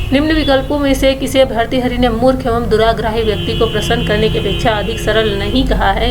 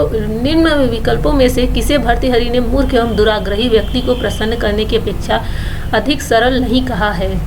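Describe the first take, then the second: Both takes have the same delivery.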